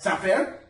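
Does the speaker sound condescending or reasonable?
condescending. The tone is condescending and talking down. The listener is treated as stupid. The speaker calls it wrong. "Idiot? You see how that screams a little bit of a different message"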